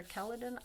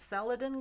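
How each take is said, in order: First: Celadon said with a K sound, KELL-uh-don; hard C pronunciation. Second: Celadon said with an S sound, SELL-uh-don; soft C pronunciation. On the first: Painter offering the other guess, Celadon with hard K. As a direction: start Celadon with a hard C, like "kelp". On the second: Painter unsure of a color name, Celadon with soft S. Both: Shown as a demonstration. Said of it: "don't know how to pronounce".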